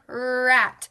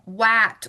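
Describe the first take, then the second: First: The word begins with an R sound. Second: The word begins with a W sound. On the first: The speaker calls it right. "Remember, where's our tongue?" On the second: The speaker calls it wrong. "if you hear it become wat"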